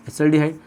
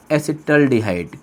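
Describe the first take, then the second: First: Said in the usual way. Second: Slow, lower, drawn-out term; slow dictation. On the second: Shown as a demonstration. Teacher naming the second aldehyde for students, slow dictation. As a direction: spell it out by syllables. Teacher introduces new name slowly.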